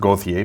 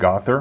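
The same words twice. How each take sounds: First: The name is said with French pronunciation. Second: The name is said with English pronunciation. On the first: This is the name's real pronunciation. The speaker calls it right. "it's really pronounced" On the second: This is how others have been saying it. The speaker calls it wrong. "but I heard"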